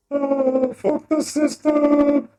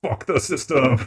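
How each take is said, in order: First: High, loud, stretched rebel yell; hammed-up high shout. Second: Said in the usual way. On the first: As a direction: yell it up high, slow and defiant.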